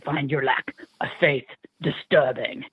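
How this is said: It is said in a Darth Vader voice.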